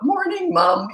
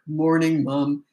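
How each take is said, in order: First: The greeting sounds cheerful and giggly. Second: The greeting sounds serious and grown-up.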